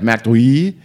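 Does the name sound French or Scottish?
French. The name is said with a French-sounding pronunciation. The speaker calls it wrong. "that sounds French, not Scottish"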